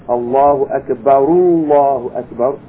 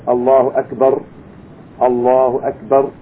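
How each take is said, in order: First: The phrases are joined with an u vowel. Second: The two phrases are kept separate without a linking vowel. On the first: "we should make it with a Dhamma, an U sound" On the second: "if we're going to keep it separate, there's no problem"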